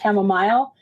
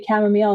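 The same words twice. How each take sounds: First: It is said the Canadian way. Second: It is said the American way. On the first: "Chamomile is more of a Canadian way of saying it" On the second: "We've been training ourselves to say chamomile"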